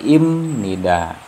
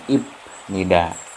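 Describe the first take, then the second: First: The consonant before nida is an m sound. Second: The consonant before nida is a p sound. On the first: The speaker calls it right. "baca yang benar ini adalah im nida" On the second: The speaker calls it wrong. "bukan ip nida"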